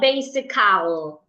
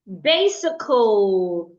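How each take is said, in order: First: The a in the ending is full and open. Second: The a in the ending is weak and reduced. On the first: The speaker calls it wrong. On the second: The speaker calls it right.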